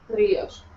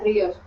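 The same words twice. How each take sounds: First: The R sound is poorly pronounced. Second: The R sound is clearly pronounced. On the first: The speaker calls it wrong. "yo decía ríos ... una R que no suena bien" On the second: The speaker calls it right. "No sé si notas la diferencia"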